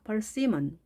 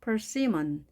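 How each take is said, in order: First: The stress is on the second syllable. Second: The same.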